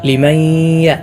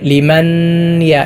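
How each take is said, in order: First: The n merges into the y with nasal sound. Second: The n is kept separate before the y. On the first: The speaker calls it right. "ഇദ്ഗാം ബിഗുന്ന" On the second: The speaker calls it wrong. "ലിമൻ യ എന്ന് പലരും ഓതാറുണ്ട്"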